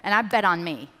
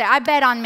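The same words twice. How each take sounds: First: Said in the usual way. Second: I bet on me called out, loud and firm; loud declaration. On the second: Shown as a demonstration. Speaker prompting the audience to repeat, loud. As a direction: declare it loudly to yourself.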